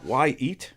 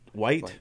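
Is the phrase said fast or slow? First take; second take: slow; fast. First: It is said slowly as two separate words. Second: It is said fast, blending into one word.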